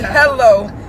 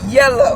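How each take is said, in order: First: The word begins with an h sound. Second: The word begins with a y sound. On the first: This is the usual way to say it. "He don't say hello" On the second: This is how an older relative says it. "he say yellow"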